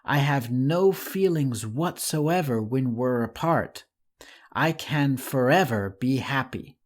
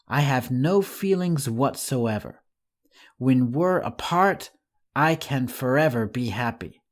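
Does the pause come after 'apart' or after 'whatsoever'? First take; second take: after apart; after whatsoever. First: The break comes after the word apart. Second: The break comes after the word whatsoever. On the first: The writer feels nothing when the two are apart. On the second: The writer is happy when the two are apart.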